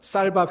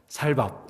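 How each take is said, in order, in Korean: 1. 첫 s 소리는 된소리이고 세요. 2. 첫 s 소리는 평음이고 부드러워요. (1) "쌀밥 해보세요" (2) "살밥 이러면 죽는 거예요"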